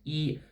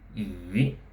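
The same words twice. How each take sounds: First: The pitch stays high and level throughout. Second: The pitch rises through the syllable. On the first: "It's a high flat tone" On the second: "rising tone"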